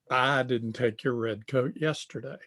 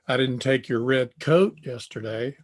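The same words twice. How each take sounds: First: The stress falls on the word I. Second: The stress falls on the word coat. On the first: Someone else took it. "I didn't take it, but somebody else did" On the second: A different item was taken. "I took a sweatshirt"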